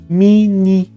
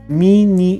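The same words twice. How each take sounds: First: The first vowel sounds like i. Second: The first vowel sounds like i.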